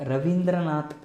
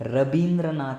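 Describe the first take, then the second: First: The second consonant is a V sound. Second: The second consonant is a B sound. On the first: This is the standard form of the name. "ರವೀಂದ್ರನಾಥ್ ಅನ್ನೋ ಬದಲಿಗೆ" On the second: This is how people from West Bengal say it. "ರಬೀಂದ್ರನಾಥ್ ಅಂತೇಳಿ ಕರೀತಾರೆ"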